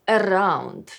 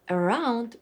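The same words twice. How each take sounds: First: The R is rolled. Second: The R is a smooth English R.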